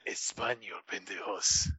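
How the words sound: It sounds menacing and threatening.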